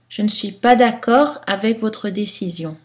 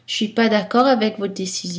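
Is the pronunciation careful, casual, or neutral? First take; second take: neutral; casual. First: Some weak vowels are pronounced, some dropped. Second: Most weak vowels are dropped. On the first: This fits any situation. "Style neutre" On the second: This is informal speech. "Style informel"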